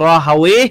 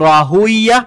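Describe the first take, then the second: First: The name ends in an 'awaye' sound. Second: The name ends in a 'uya' sound. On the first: "এটাও বলা হয়" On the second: "এটাও বলা হয়"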